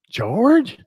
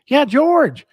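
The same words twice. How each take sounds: First: Higher, louder, rising query on the name; puzzled question. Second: Much higher, louder, falling on George; exasperated confirmation. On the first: Storyteller replaying his confusion to the customer, puzzled question. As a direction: act out a baffled "George?". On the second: Storyteller voicing the wife correcting him, emphatic exasperation. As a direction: insist on the obvious, mimicking her. Wife's exasperated reply in retold exchange. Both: Retold or imitated.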